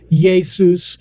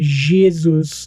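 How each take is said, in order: First: The name is said with a Latin pronunciation. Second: The name is said with a French pronunciation. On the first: This is how the Romans said the name. "the Romans started calling him Jesus" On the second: This is how the French said the name. "the French started calling him Jesus"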